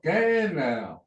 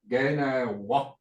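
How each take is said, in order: First: The word ends without the final syllable. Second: A final syllable is pronounced at the end. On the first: The speaker calls it right. "you don't actually say the wa" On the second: The speaker calls it wrong. "they spell it with a W A"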